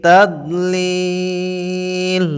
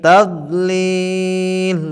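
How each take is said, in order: No difference in how they are said.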